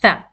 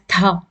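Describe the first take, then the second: First: The th sound is voiceless and light. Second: The th sound is voiced, as in 'the'. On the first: The speaker calls it right. "it is pronounced as tha" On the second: The speaker calls it wrong. "you shouldn't pronounce as tha, like in English, the"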